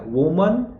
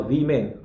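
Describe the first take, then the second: First: वुमन with short 'voo'; slow वुमन, rounded first vowel; singular pronunciation. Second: वीमेन with long 'vee'; slow, falling वीमेन; plural pronunciation. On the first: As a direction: model 'voo-man' clearly. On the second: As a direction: model 'vee-men' clearly. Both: Shown as a demonstration. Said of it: "वुमन और वीमेन".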